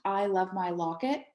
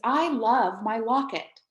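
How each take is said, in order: First: It is said in a flat, even tone. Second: It is said with strong, excited feeling.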